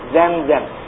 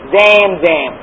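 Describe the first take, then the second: First: The vowels are short, without drawn-out intonation. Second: The vowels are drawn out with added intonation. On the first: "in Arabic, you say Zamzam ... without these elongations and these intonations"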